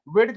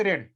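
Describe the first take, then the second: First: Said in the usual way. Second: "रेड" for वेड, र replacing the opening व; child's sound substitution. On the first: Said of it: "वेड की जगह पे रेड". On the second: Shown as a demonstration. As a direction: begin "रेड" with र instead of व. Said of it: "वेड की जगह पे रेड करना". ("रेड" में व की जगह र बोलें)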